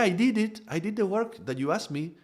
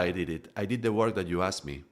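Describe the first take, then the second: First: The voice is pitched high, like a child's. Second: The voice is pitched low and steady. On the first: The speaker gives their power away. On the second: The speaker keeps their own power.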